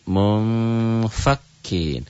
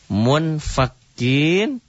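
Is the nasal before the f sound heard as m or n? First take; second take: m; n. First: A soft, hidden m sound comes before the f. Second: A clear n sound comes before the f. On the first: This is how the word is read with ikhfa. "dibacanya menjadi mumfakin" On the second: This is how the word is written.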